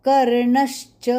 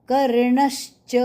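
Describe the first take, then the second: No difference in how they are said.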